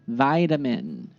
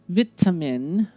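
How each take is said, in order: First: The vowel differs and t sounds like d. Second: The t is a crisp, clear t sound. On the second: "British style"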